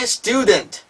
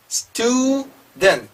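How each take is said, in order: First: Said in the usual way. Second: Student slowly split as 'stu... dent', higher; student in syllables. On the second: Shown as a demonstration. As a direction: break student into two long syllables. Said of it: "읽어지기 시작하셔야 돼요". (student를 음절로 나누어 천천히)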